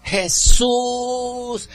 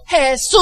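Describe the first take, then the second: First: High, drawn-out cry for Jesús; first high plea, held long. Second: Very high, long-held shout of Jesús; louder, soaring cry for help; cry shifted up a gear. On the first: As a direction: call out for Jesús from afar. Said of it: "empieza a gritar". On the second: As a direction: belt out Jesús in anguish. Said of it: "le mete el otro cambio". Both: Acted.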